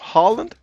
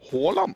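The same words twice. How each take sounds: First: The first vowel is an unrounded open 'ah'. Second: The first vowel is a rounded 'aw' sound. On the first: The speaker calls it wrong. "Instead of Haaland" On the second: The speaker calls it right. "you just gotta start practicing at that Å"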